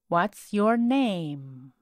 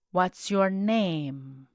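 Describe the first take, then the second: No difference in how they are said.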